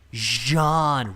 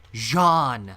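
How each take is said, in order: No difference in how they are said.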